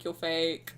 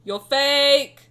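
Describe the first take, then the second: First: Said in the usual way. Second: Louder, higher playful jab; mock accusation. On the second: Telling drunk Silas in the corner he's fake, loud teasing. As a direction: fling it at him like a teasing accusation. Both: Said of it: "I'm like".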